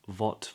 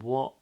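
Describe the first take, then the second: First: It begins with a V sound. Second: It begins with rounded lips, a W sound. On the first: The speaker calls it wrong. "some speakers replace that with a V. So not" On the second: The speaker calls it right. "Make sure the two lips are rounding"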